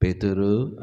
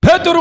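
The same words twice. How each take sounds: First: Pethuru called low and soft with a rising end; a hushed, dreamlike call of Pethuru. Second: Pethuru called out sharply, loud and high; a sudden loud call of Pethuru. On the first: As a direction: murmur Pethuru gently so he won't startle. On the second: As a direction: bark the name Pethuru so he jumps. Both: Shown as a demonstration. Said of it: "జడుచుకుంటాడని".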